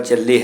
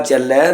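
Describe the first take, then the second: First: ਚੱਲੇ ending in close e; lavan e sound. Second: ਚੱਲੈ ending in open ai; dulavan ai sound. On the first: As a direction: narrow the last vowel of ਚੱਲੇ to e, not ai. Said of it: "ਚੱਲੈ ਨੂੰ ਚੱਲੇ ਪੜ੍ਹ ਜਾਂਦੇ". (ਚੱਲੇ ਵਿੱਚ ਲਾਂ ਦੀ ਤੰਗ ਆਵਾਜ਼) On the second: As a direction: open the last vowel of ਚੱਲੈ to ai, not e. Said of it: "ਦਲਾਮ ਦੀ ਆਵਾਜ਼ ਵੀ ਸਹੀ ਕੱਢਣੀ". (ਚੱਲੈ ਵਿੱਚ ਦੁਲਾਵਾਂ ਦੀ ਖੁੱਲ੍ਹੀ ਆਵਾਜ਼) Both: Shown as a demonstration.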